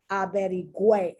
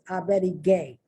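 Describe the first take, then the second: First: The g is followed by a w sound. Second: The g is followed by no w sound. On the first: The speaker calls it right. "and you have that wah, wah, wah sound" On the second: The speaker calls it wrong. "if it didn't have those two little dots"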